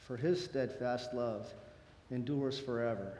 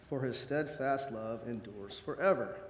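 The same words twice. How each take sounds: The two takes are said the same way.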